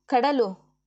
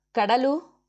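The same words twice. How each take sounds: First: ಕಡಲು called out louder with a falling end; second call of her name, dropping at the end. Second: ಕಡಲು called out louder with a rising end; calling out. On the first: Agni calls his wife again on entering, loud falling call. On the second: Agni calls for his wife as he comes home, loud rising call. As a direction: call her name across the house, ending up. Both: A narrator's reading. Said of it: "ಕೂಗಿಕೊಳ್ಳುತ್ತಲೇ".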